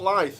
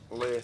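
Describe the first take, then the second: First: The name sounds like the word life. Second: The name sounds like faith without the f. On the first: The speaker calls it wrong. "It's not life like you kept saying" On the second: The speaker calls it right. "Leif as in faith"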